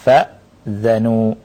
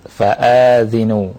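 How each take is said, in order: First: A short vowelless glottal stop; 'a' follows dh. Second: A long 'aa' after the glottal stop; 'i' follows dh. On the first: "Hamzahnya disukun, dzalnya di fathah" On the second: "Alifnya dipanjangkan, kemudian zalnya di kasrah"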